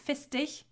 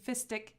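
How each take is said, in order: First: The ending is pronounced the German way. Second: The ending is not pronounced the German way. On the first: "I pronounce this in a very German way" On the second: "It could also be fistig"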